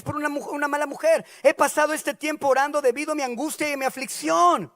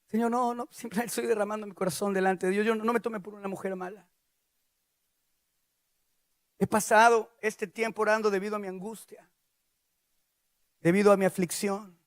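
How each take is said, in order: First: High, impassioned pleading; anguished defence. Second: Subdued, understated confession of anguish; drained, defenceless plea. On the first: Ana defends herself to Eli, high impassioned plea. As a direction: pour out distress in self-defence. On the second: Ana too weak to defend herself, subdued plea. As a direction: explain yourself with no fight left. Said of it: "ya no tenía fuerzas ni de defenderse". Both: Acted.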